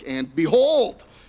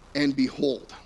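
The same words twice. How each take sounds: First: It is said emphatically, drawing attention. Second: It is said plainly, without emphasis.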